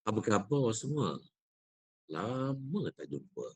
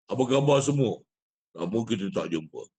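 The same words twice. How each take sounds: First: Softer, easy greeting with lama slowed; natural speaking voice. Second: Louder, pushed greeting on khabar; forced big voice. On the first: Teacher showing the better, natural recitation voice to students. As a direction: say it as if to a friend nearby, unforced. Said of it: "Yang kedua". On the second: Teacher showing the wrong, pushed recitation voice to students. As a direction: project khabar hard as if to a crowd. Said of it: "Ataupun suara yang kedua". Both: Shown as a demonstration.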